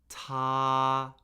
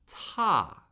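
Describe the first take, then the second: First: The pitch stays high and level. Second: The pitch falls steadily from high. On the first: "the first tone, high, flat, and unchanging" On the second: "the fourth tone steadily falls"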